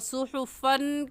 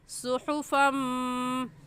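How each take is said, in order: First: The word ends with a clear n sound. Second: The final n merges into a nasal m. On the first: The speaker calls it wrong. "सुहुफन कहने के बजाय इदगाम करेंगे" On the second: The speaker calls it right. "फ़ा को मीम के साथ मिलाकर"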